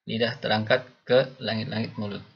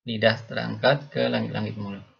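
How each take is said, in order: The two takes are said the same way.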